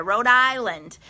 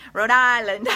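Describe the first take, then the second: First: Said in the usual way. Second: "Rhode Island" said in a put-on New England accent, a touch louder. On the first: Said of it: "I don't know if I said that right". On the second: Shown as a demonstration. Naming her friend's home state in a light New England accent. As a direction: try the Rhode Island way of saying "Rhode Island". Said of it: "Oh, with the accent".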